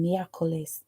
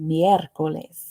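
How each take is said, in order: First: The word is said with a French accent. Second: The word is said with a Spanish accent.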